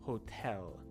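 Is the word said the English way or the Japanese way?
English. It has English sounds ending in an L sound. "instead of"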